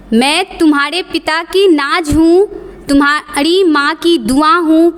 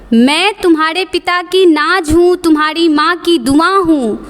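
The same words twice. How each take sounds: The two takes are said the same way.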